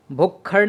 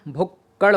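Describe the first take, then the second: First: भुक्खड़ with an aspirated double kkh; wrong form. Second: भुक्कड़ with a plain double kk; no puff of air on the kk of भुक्कड़; corrected form. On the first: Teacher showing the rejected form, भुक्खड़ with aspirated kkh. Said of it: "नहीं होता". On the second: Teacher giving a contrasting form, भुक्कड़ with unaspirated kk. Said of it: "होता है". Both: Shown as a demonstration.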